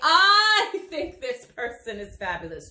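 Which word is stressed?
I. The word I is strongly stressed.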